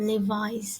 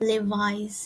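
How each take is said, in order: No difference in how they are said.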